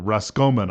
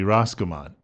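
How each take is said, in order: First: The name is said in the Irish way. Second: The name is said in an American way.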